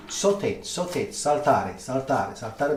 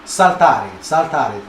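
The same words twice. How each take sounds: First: Slow, drawn-out "saute, saltare", stress on TA; slow chef's lesson on "saltare", sal-TA-re; slow teaching repeat. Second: "saltare" said the Italian way, sal-TA-re, stress on TA; Italian pronunciation of "saltare", stress on the middle syllable. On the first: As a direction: spell it out slowly for the viewers. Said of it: "That's why they say saute". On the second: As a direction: teach "saltare" as an Italian chef would, sal-TA-re. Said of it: "in Italian really means". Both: Shown as a demonstration.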